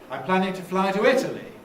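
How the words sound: The pitch falls on the final word. "I'm using a fall there"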